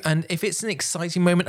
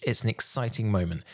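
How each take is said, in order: First: Excited. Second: Said in the usual way. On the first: Shown as a demonstration. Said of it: "when I say exciting". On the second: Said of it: "in the context of your speech".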